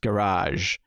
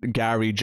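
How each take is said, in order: First: It is said the American way. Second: It is said the speaker's own British way.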